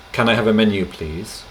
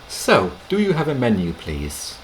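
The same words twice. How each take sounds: First: "Can I have a menu" said flat and direct; a customer ordering the waiter; blunt order. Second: "So" said lightly up front, softening the ask; gentle polite restaurant ask; friendly polite request. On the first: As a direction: demand it a little bluntly. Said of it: "which sounds a bit rough, like an order". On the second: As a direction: ease into the question with "So". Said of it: "you can say, like you would in English". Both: Shown as a demonstration.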